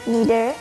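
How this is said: It is said the American English way. "American English pronouns tend to be"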